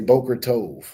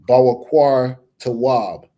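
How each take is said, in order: First: The vowels sound like plain o, as boker tov. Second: The vowels sound like aw, with w sounds. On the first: This is how the other group says it. "They would say" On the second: This is how the speaker's own group says it. "We would say"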